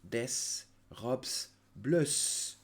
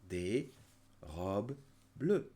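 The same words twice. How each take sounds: First: The plural s sounds are pronounced aloud. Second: The plural s sounds are left silent. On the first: The speaker calls it wrong. "Please don't say des robes bleues. No, no, no" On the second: The speaker calls it right. "We do not pronounce it"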